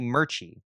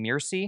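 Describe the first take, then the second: First: The name is pronounced like 'Murchie'. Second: The name is pronounced like 'Mirci'. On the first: The speaker calls it right. "It's actually Murchie" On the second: The speaker calls it wrong. "I've I've been saying it wrong this whole time. I was saying Mirci"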